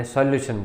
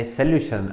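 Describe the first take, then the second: First: સોલ્યુશન said "sol-lyu-shun", full o first; common local pronunciation. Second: સોલ્યુશન said "se-LYU-shun", short first vowel; correct pronunciation. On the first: Teacher quoting how we usually say it, સોલ્યુશન as "sol-lyu-shun". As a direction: open સોલ્યુશન with a clear "sol". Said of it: "આપણે સોલ્યુશન કહીએ છીએ". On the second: Teacher showing students how the word is pronounced, સોલ્યુશન as "suh-lyu-shun". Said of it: "આનો ઉચ્ચાર થાય". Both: Shown as a demonstration.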